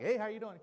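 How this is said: It is said in a casual, passing way.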